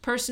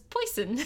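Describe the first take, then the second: First: It has a standard 'er' vowel. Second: It has a Yat 'oi' vowel.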